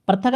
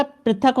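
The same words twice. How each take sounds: First: "पृथक" as pra-thak, with an a; wrong form prathak. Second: "पृथक" as pri-thak, with an i; corrected form prithak. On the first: Teacher rejecting a misspelling, "पृथक" as pra-thak. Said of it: "पृथक नहीं होगा". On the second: Teacher correcting students, "पृथक" as pri-thak. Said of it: "पृथक होगा". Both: Shown as a demonstration.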